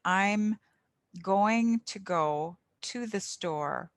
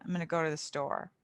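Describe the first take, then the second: First: Slow, every sound of going to go to the store; careful full pronunciation. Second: Fast, slurred gonna go to the store, endings dropped; sloppy fast speech. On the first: Tutor showing clear speech to beginners, slow. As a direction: say going to in full, crisp endings. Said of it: "emphasize the correct pronunciation". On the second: Tutor contrasting careless speech, fast and slurred. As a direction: rush it, swallow the endings. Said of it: "easier to understand than". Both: Shown as a demonstration.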